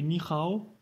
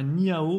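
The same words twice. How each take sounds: First: Ni hao avec un H raclé comme un R; bonne prononciation. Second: Ni hao avec le H muet, à la française; mauvaise prononciation. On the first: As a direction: dire « ni hao » en raclant le H au fond de la gorge. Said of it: "mais ni hao". (« ni hao » à la chinoise, H comme un R) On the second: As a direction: dire « ni hao » sans souffle, comme un Français. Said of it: "c'est pas ni hao". (« ni hao » prononcé à la française, H muet) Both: Shown as a demonstration.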